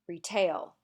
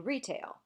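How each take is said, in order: First: The stress is on the second syllable. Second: The stress is on the first syllable. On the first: The speaker calls it wrong. "We don't say" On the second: The speaker calls it right. "We say retail"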